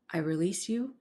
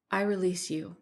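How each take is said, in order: First: "I release you" with YOU lifting at the end; rising declaration. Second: Calm, composed declaration. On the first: Mina repeats "I release you" to the entity, rising on "you". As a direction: let "you" rise, held open. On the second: Mina frees the entity that hurt her, calmly. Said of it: "said Mina calmly". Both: A narrator's reading.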